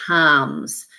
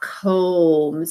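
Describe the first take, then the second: First: The vowel is not said as a long O. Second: The vowel is said as a long O. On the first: The speaker calls it right. "It's not a long O, it's comes" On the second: The speaker calls it wrong. "this vowel sound here is not combs"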